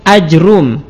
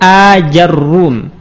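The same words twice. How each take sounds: First: Short first a, bare j, then a single r. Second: Long first a, then ja, then a doubled r. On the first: "memfathah hamzah tapi tidak dimatkan, kemudian mensukun jim dan mendomah ra tanpa ditasydidkan" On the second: "dengan hamzah mamdudah, kemudian jimnya kita fathah, ra-nya kita dhammah dan ditasydid"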